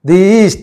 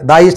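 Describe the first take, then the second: First: 'The' is said with a long ee vowel. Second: 'The' is said with a short uh vowel. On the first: The speaker calls it right. "ది east అని పలకాలి" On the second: The speaker calls it wrong. "ద east అని పలకూడదు"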